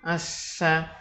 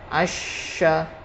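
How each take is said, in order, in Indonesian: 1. Konsonannya condong ke bunyi s. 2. Konsonannya bunyi sh yang jelas. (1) "kalau menyentuh gigi itu nanti marok e, bacaan dari huruf sin" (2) "tengah lidah sedikit terangkat ketika kita mengucapkannya"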